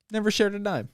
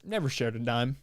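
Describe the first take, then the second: First: "Never shared a dime" pitched higher with shared stressed; emphatic repeat. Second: Said in the usual way. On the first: Real, not acted.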